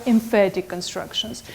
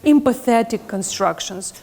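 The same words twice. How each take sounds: First: "emphatic" said em-FAT-ic; three syllables in "emphatic", f sound, stress on FAT; corrected term. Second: "Empathetic" with an extra syllable, em-puh-THET-ic; mistaken student wording. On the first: Shown as a demonstration. Teacher correcting a student's slip, "emphatic" pronounced with f, em-FAT-ic. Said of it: "they are emphatic constructions". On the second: Retold or imitated. Teacher quoting a student's slip, mispronouncing emphatic as "Empathetic". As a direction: say "Empathetic" with a th sound, stressed on THET. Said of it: "One of my students say".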